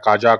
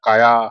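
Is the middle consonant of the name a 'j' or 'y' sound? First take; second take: j; y. First: The middle consonant is a 'j' sound. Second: The middle consonant is a 'y' sound. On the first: "कोई कहता है" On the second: "कोई कहता है"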